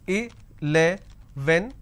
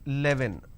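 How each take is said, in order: First: The word has its standard pronunciation. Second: The word has a commonly heard altered pronunciation. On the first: The speaker calls it right. "I can pronounce this as" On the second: The speaker calls it wrong. "that's a mispronunciation"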